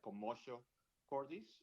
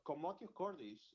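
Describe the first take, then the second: First: It is pronounced with anglicized pronunciation. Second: It is pronounced with Latin pronunciation. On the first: "some people pronounce it like" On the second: "that's a Latin pronunciation"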